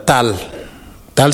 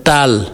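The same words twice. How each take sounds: First: Tal with a short clipped a; tal, short a, the name; short vowel. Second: Tal with the a drawn out long; Taal, long a meaning fire; long vowel. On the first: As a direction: say tal with a quick a. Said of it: "selon tu tires sur les voyelles". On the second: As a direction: stretch the a in Tal. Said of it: "tu vas faire T deux A L". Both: Shown as a demonstration.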